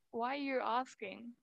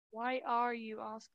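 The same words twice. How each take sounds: First: "Why are" contracted like "wire"; "Why are" run together. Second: "Why are" as two distinct words; "Why are" said separately. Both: Shown as a demonstration. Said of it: "that's how you say it".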